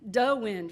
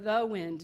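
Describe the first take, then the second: First: The first word starts with a d sound. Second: The first word starts with a th sound. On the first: It marks a Yooper or French Canadian way of speaking. "what we recognize today as Yooper talk" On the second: It is the standard form. "for the wind"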